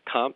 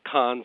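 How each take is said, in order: First: The syllable ends with an m-p sound. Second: The syllable ends with an n sound. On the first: "it's comp, C-O-M-P" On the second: "pronouncing it like it's spelled con, C-O-N, is totally appropriate"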